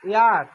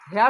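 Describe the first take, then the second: First: The word begins with a vowel sound. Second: The word begins with an H sound. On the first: The speaker calls it right. "বলতেছে ইয়ার" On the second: The speaker calls it wrong. "হিয়ার হেয়ার হচ্ছে না"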